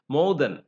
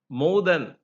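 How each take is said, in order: The two takes are said the same way.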